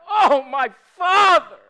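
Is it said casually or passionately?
passionately. It is cried out with intense feeling.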